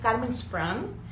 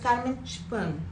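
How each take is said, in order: First: The surname is said without German pronunciation. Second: The surname is said with German pronunciation. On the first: The speaker calls it wrong. "no es Carmen Sprung" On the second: The speaker calls it right. "porque así se pronuncia en alemán"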